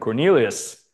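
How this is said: It is said in a deep voice.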